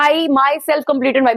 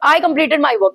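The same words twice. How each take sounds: First: "myself" pressed slow and firm after "I"; slow, weighted "I myself"; stress on myself. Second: Said in the usual way. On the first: Shown as a demonstration. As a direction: lean into "I myself". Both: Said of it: "stress कैसे दिया?".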